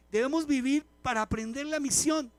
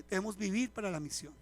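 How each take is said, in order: First: Vivir pushed louder and higher; stress on vivir. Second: Said in the usual way. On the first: Shown as a demonstration. Pastor drilling the congregation on their mission, vivir stressed. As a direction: hammer home vivir.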